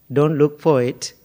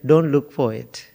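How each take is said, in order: Both takes have the same delivery.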